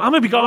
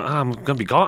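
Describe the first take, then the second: First: High, loud whiny wail; mock wail. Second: Said in the usual way. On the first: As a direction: wail it like a kid being left out. Mock lament about missing episodes.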